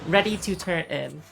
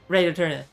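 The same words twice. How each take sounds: First: The words are mostly clear, with the final n weak. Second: The words are slurred together and hard to make out. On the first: The speaker calls it right. "even that a little bit. I said tur, not turn" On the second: The speaker calls it wrong. "that doesn't sound like anything. That's not words"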